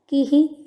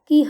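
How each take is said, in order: First: A short vowel echoes after the final h. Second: It ends on a bare h sound. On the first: The speaker calls it right. "किही ऐसा उच्चारण करना है" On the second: The speaker calls it wrong. "कीह उच्चारण करेंगे तो गलत होगा"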